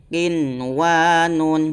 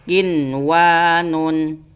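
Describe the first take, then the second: Both takes have the same delivery.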